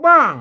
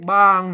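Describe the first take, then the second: First: The syllable is said with a falling tone. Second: The syllable is said with a low tone. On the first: "ไม่โทรบ้าง" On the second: "บางนะครับไม่เอก"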